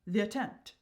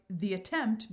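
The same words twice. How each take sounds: First: "the attempt" run together as th'attempt, two syllables; "the attempt" squeezed into "thattempt"; compressed syllables. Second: Said in the usual way. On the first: Shown as a demonstration. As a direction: elide the vowel of "the" into "attempt". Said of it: "eliminating sounds or syllables". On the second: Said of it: "making words or phrases shorter".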